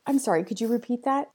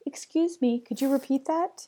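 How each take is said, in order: First: Apologetic ask. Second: Polite confident ask. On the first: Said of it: "Or how about". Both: Shown as a demonstration.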